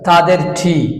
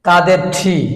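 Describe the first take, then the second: No difference in how they are said.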